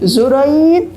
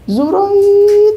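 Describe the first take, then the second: First: The name is called fairly high and drawn out. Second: The name is called very high and long. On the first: The caller is starting to lose patience. "sudah mulai nadanya agak tinggi dan panjang" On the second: The caller is very angry. "dengan nada yang sangat tinggi dan panjang"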